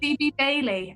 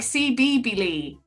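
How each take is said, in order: First: The name ends with the word 'Bailey'. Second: The name ends with separate sounds 'B Lee'. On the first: The speaker calls it right. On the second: The speaker calls it wrong.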